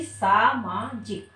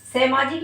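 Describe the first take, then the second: First: सामाजिक very slowly, syllable by syllable, "saa-maa-jik"; correct long vowel. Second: सामाजिक as "semajik", firmly; wrong first vowel. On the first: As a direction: stretch both aa vowels in सामाजिक. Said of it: "बल्कि". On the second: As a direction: say सामाजिक with e in the first syllable, louder. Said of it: "नहीं". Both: Shown as a demonstration.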